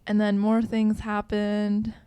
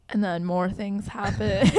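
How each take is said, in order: First: Said in the usual way. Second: Slow, laughing repeat. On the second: Shown as a demonstration.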